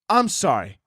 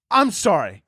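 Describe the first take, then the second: No difference in how they are said.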